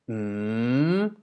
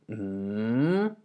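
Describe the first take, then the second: First: The pitch dips and then rises upward. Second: The pitch dips and then rises upward.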